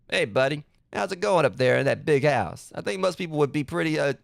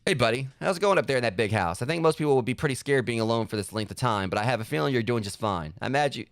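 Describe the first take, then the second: First: A light, lightly voiced cartoon dad; reading the letter as a mild Dexter's Lab dad. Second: Said in the usual way. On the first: Gamer reads his dad's letter in a lightly voiced cartoon dad. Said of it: "voice him like, you know, dad from Dexter's Lab". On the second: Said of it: "I kinda wanna voice him like".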